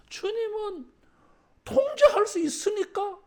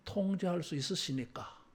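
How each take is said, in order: First: 통제할 수 있으니까를 높고 크게 외치듯; 회중이 따라 하도록 크게 선창; 따라 하라고 외침. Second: Said in the usual way. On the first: Shown as a demonstration. (회중이 따라 하도록 크고 높게 외치는 선창) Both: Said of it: "따라하겠습니다".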